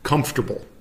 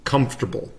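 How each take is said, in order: First: The second syllable is dropped. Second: The same.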